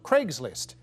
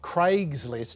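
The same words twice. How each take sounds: First: It is said with an American pronunciation. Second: It is said with an Australian pronunciation. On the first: "in the U S they call it Craigslist" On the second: "we call it Craigslist here"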